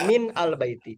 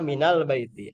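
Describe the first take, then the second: First: MIN stressed, then AL BAITI apart; original separated form. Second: MINAL BAITI linked as mi-nal; joined reading. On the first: Teacher contrasting the original form, separated words. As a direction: break "min" cleanly from "al baiti". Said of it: "Aslinya min al baiti". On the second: Teacher concluding how it is read, linked pronunciation. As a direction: glide from min straight into "al baiti". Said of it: "Maka minal baiti". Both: Shown as a demonstration.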